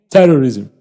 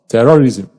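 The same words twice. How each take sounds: First: The unstressed vowel is reduced to uh. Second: The unstressed vowel is said as a full vowel. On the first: The speaker calls it right. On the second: The speaker calls it wrong.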